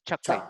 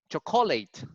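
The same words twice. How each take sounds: First: The stress is on the first syllable. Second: The stress is on the middle syllable. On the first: The speaker calls it right. "The intonation is cha" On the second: The speaker calls it wrong. "here in the middle. So it was it will sound like chocolate"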